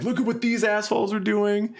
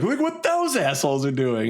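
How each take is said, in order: First: High-pitched tattletale call-out; mock tattling. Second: Higher-pitched parody of a rival's complaint; mimicked tattling. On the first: Musician acting out his post tagging the festival, tattling. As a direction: act out reporting a rival, pitched way up. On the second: Musician mimicking the rival band's post to the festival, tattling back. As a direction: echo the call-out as the other side.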